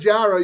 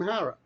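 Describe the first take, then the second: First: The name begins with a J sound. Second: The name begins with an H sound. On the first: The speaker calls it wrong. "instead of Jara" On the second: The speaker calls it right. "you'll be calling him Hara"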